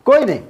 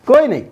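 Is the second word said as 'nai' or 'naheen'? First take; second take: nai; nai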